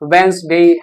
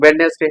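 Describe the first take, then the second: First: The middle d sound is left out. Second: The middle d and e sounds are pronounced. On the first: The speaker calls it right. "It's वेंसडे" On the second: The speaker calls it wrong. "No, it's not वेडनेसडे"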